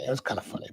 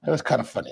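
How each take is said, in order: First: Murmured afterthought; soft muttered aside to himself; quiet echo. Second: Said in the usual way. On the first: Real, not acted. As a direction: repeat it much softer, to yourself. Quieter echo of his own remark.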